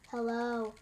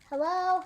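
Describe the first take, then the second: First: The voice is flat and monotone. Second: The voice calls out loudly to someone. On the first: "very monotone" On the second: "calling out"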